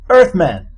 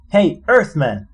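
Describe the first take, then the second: First: Loud, high call across the crater. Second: Louder, higher repeat of the call; calling again. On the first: Zaphod calling over to Arthur, a loud call. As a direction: hail him from a distance. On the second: Zaphod calling Arthur again to get his attention, a louder call. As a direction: call him a second time. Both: Acted.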